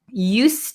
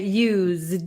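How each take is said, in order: First: The word ends with an S sound. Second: The word ends with a Z sound. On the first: Something happened regularly in the past. "it's not going to be a Z sound. It's going to be an S sound" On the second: Something was used already. "It's going to have a Z sound"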